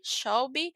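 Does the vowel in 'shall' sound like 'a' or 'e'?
a. The vowel in shall sounds like a. This is the usual pronunciation. "o shall realmente ele tem esse som de shall"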